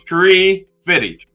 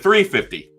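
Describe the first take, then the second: First: The first word begins with a plain 't' sound. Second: The first word begins with a 'th' sound. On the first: "He said tree fifty" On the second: "instead of three fifty"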